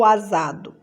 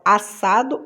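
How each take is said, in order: First: "asado" with a buzzing Z; Z sound. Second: Said in the usual way. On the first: Shown as a demonstration. Teacher offering the wrong option, "asado" voiced with Z. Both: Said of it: "então dois S's".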